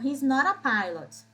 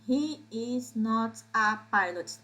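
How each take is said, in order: First: He and is are joined into one contracted syllable. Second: He and is are said as separate full words. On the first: The speaker calls it right. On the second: The speaker calls it wrong.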